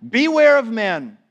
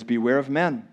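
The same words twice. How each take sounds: First: Higher, louder stern warning. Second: Said in the usual way. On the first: Shown as a demonstration. Preacher reading Jesus's warning to disciples, louder. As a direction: ring out the warning.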